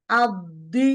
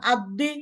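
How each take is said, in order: First: আদি with the sukun দ given its time; correct timed dal. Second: আদি with no pause on the দ; rushed dal. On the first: Teacher showing the right timing on the sukun. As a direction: hold the দ in আদি a beat. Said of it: "আপনি যদি বলেন আদি". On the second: Teacher warning students, showing the rushed mistake. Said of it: "হবে না". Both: Shown as a demonstration.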